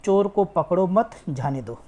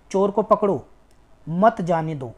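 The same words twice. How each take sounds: First: "चोर को पकड़ो मत", short break, then "जाने दो"; मत closes the first phrase, जाने दो stands apart; pause after मत. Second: "चोर को पकड़ो", clear break, then "मत जाने दो"; पकड़ो closes the first phrase, मत opens the second; pause after पकड़ो. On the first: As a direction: keep पकड़ो मत together and pause before जाने दो. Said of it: "हरण लगा दें". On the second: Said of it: "अगर हम यहाँ पर लगा दें". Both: Shown as a demonstration.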